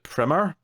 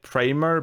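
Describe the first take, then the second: First: Primer with a short i, PRIM-er; posh pronunciation. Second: Primer with a long i, PRY-mer; standard pronunciation. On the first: Cohost quotes the posh pronunciation, Primer as PRIM-er. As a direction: say Primer to rhyme with trimmer. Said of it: "this posh pronunciation". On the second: Cohost names the film, Primer said PRY-mer. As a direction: say Primer to rhyme with timer. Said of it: "but they pronounced it Primer". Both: Shown as a demonstration.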